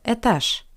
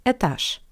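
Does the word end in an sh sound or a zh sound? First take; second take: sh; sh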